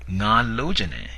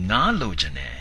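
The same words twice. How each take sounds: First: The first word has a long level tone. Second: The first word has a high tone. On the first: I want to have sex. "pronounced with a long stretched out long vowel or a long tone" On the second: I want a fish. "pronounced with a high tone"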